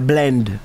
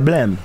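First: The word ends with an nd sound. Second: The word ends with an m sound. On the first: This is the form not used in Jamaica. "we don't say blend" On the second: This is the form used in Jamaica. "in Jamaica, we say blame"

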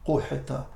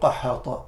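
First: The first syllable has a 'u' vowel. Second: The first syllable has an 'a' vowel. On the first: The speaker calls it right. "the correct way of saying it is قُحِتَ الْمَطَرِ" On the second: The speaker calls it wrong. "not قَحَطَ"

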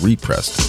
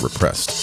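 First: The first syllable has a full 'ree' vowel. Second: The first syllable has a reduced 'ri' vowel. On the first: The record was pressed again. The speaker calls it right. "That's repressed" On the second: Something was held down or suppressed. The speaker calls it wrong. "not repressed"

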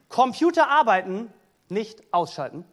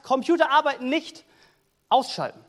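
First: There is a pause before 'nicht'. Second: There is a pause after 'nicht'.

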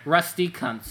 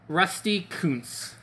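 First: The surname is given the crude American reading. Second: The surname is not given the crude American reading.

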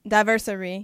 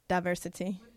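First: The word ends with the syllables '-sa-ry'. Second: The word ends with the syllables '-si-ty'. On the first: The speaker calls it wrong. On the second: The speaker calls it right.

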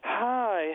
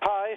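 First: The greeting is said in a calm, relaxed tone. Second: The greeting is said in a tense, strained tone. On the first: The speaker feels at ease with the listener. The speaker calls it right. "in that calm way" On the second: The speaker expects trouble from the listener. The speaker calls it wrong. "when you're tense"

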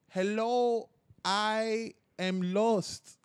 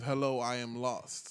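First: It is said with a put-on Spanish accent. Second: It is said in the speaker's plain accent.

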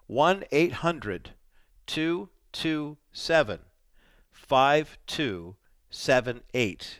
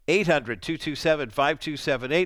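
First: The number is read slowly. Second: The number is read at normal speed.

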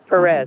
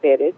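First: The surname is said with an anglicized pronunciation. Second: The surname is said with a Spanish pronunciation. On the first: This is the version others pressured the speaker to use. The speaker calls it wrong. "They wanted me to say my name Perez" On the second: This is the name as given by family and heritage. The speaker calls it right. "[name] is how I pronounce it and always pronounced it"

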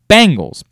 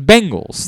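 First: The first syllable sounds like 'bang'. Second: The first syllable sounds like 'ben'. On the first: It is the local way of saying it. "be like the band, B-A-N-G-L-E-S" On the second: It is the standard way of saying it. "The answer is Bengals. That's how you say"

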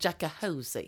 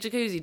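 First: The word is distorted into extra syllables. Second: The word is pronounced in the usual way. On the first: "he said it like that" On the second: "Does so everyone in Wimbledon say jacuzzi?"

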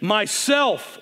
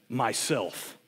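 First: It is said in a loud, clear voice. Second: It is said in a very deep, low voice.

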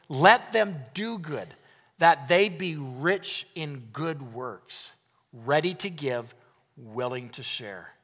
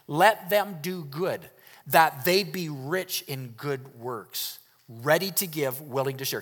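First: It is read slowly and deliberately. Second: It is read at a normal pace.

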